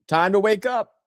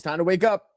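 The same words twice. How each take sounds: First: Louder rally cry. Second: Said in the usual way. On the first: Real, not acted.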